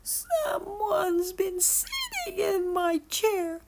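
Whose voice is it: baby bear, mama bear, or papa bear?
baby bear. It is cried in baby bear's voice.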